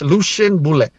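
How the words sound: The name is pronounced the English way.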